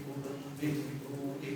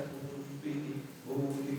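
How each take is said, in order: No difference in how they are said.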